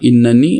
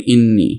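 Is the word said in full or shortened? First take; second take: full; shortened. First: The word keeps a full middle syllable 'na'. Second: The middle syllable 'na' is dropped. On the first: "कायदे में तो इन्ननी होना चाहिए" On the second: "थोड़ा सा सिंप्लीफाई करके वो इन्नी भी बोलते हैं"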